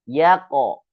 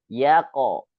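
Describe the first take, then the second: The two takes are said the same way.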